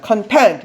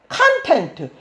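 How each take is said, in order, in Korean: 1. 강세는 두 번째 음절에 있어요. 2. 강세는 첫 번째 음절에 있어요. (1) "뒤에 강세가 있으면 만족하고 있는 그런 뜻으로 쓰여" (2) "앞에 강세가 있으면 내용물이라는 뜻입니다"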